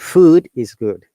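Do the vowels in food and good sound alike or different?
different. The vowels in food and good sound different.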